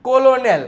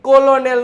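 First: It is said with three syllables, 'col-o-nel'. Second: It is said with three syllables, 'col-o-nel'.

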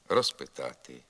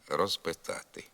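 First: Said at normal pace, the z sounds like s. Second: Said slowly, the z keeps its voiced sound. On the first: "Якщо ми говоримо швидко або нормальним темпом, то приголосний «з» у префіксі «роз» перед глухими, як правило, оглушується" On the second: "Не оглушується «з» у префіксі «роз» і тоді, коли ми говоримо повільно"

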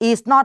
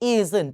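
First: Two separate full words, is and not. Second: One contracted word, isn't, without full not. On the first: "เป็นรูปเต็ม" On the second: "เป็นรูปย่อ"

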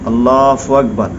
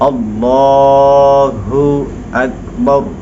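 First: The syllable after Allah sounds like 'fu'. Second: The syllable after Allah is a clear 'hu'. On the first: The speaker calls it wrong. "অনেকে দেখবেন বলে, যারা আম মানুষ" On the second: The speaker calls it right. "বলতে হবে আল্লাহ হু, হো বলতে হবে"

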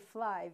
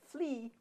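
First: The word ends with a long I sound. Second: The word ends with an E sound. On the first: The speaker calls it right. "you say fly, because we learned that as a long I sound" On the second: The speaker calls it wrong. "you don't say flea"

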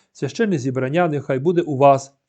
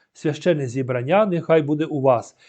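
No difference in how they are said.

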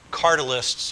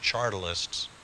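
First: The word begins with a hard 'k' sound. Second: The word begins with a soft 'ch' sound.

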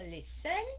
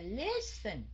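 First: The stress is on the last syllable. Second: The stress is on the first syllable. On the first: The speaker calls it wrong. "chứ mình không có đọc là listen" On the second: The speaker calls it right. "Mình đọc là listen, là nhấn âm đầu"

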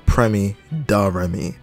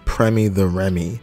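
First: The name is said with attitude, 'da'. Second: The name is said plainly, without attitude. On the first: The speaker calls it right. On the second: The speaker calls it wrong.

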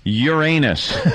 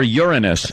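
First: It uses the embarrassing pronunciation of the word. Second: It uses the polite pronunciation of the word.

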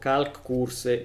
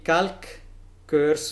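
First: The name is read with Italian pronunciation. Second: The name is read with English pronunciation.

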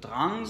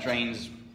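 First: The word is said with a Danish pronunciation. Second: The word is said with an English pronunciation. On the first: "Maybe I should pronounce it as Drangs, since he's a Dane" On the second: "but I'll pronounce Drains"

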